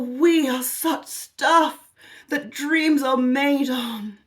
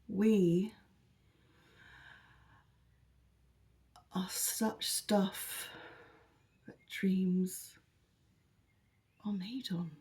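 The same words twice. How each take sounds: First: It is said in an uplifting, happy tone. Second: It is said in a flat, unhappy tone. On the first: The speaker calls it wrong. "it shouldn't be uplifting and happy" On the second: The speaker calls it right. "you would say it as"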